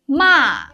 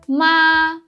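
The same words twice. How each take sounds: First: The pitch falls sharply from high. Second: The pitch stays high and level. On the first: It means scold. "a sharp falling tone" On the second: It means mother. "it's high and flat"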